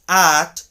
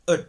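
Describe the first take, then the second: First: It has a full vowel and a clear T. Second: It has a short uh vowel and soft D. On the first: "the word at changes into" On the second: "changes into ud"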